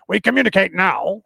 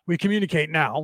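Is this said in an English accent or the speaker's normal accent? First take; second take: English; normal. First: It is said in an English accent. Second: It is said in the speaker's normal accent.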